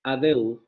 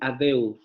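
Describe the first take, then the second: Both takes have the same delivery.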